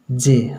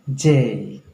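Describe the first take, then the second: First: Said in the usual way. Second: जे drawn out as "jay", gliding and falling; J with an A glide. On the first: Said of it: "हम लोग बोलते हैं जे". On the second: Shown as a demonstration. Teacher shows students the corrected letter, J with an A glide. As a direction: stretch जे with an added A sound. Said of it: "जे में थोड़ा सा ... वो ले आना है".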